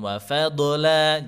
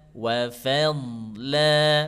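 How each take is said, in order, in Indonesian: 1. Bunyi d diucapkan dengan memantul. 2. Bunyi d diucapkan tanpa memantul.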